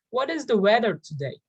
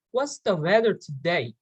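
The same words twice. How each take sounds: First: Said in the usual way. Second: "What's the weather today?" with "What's" contracted and a weak "thuh"; reduced "the". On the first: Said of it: "Instead of the". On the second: Shown as a demonstration. Teacher showing learners a natural question, contracted and reduced. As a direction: run "What's the" together, lower in pitch. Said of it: "you can say the".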